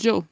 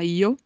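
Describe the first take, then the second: First: It starts with a dj sound. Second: It starts with a vowel-like ee sound. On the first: "uma pronúncia como se fosse um D e um J juntos" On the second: "Pode ter som de I, por exemplo, na Espanha não se fala yo, se fala io"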